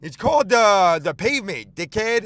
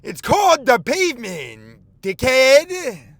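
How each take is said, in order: First: Louder, higher mock yell at a cyclist; angry yelling driver. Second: Slower, louder and higher mocking yell; angry yelling driver. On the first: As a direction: bark it like a road-raging driver. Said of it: "He goes". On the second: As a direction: drag out each word like road rage. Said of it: "He says".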